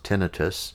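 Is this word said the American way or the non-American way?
non-American. The word is said in a non-American way.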